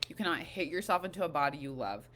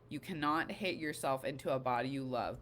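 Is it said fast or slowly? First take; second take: fast; slowly. First: It is said fast. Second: It is said more slowly.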